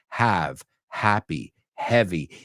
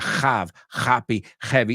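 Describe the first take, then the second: First: The H sounds are soft and light. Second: The H sounds are strong and harsh. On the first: The speaker calls it right. "just practice that H ... y que suavicemos" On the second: The speaker calls it wrong. "que no sea"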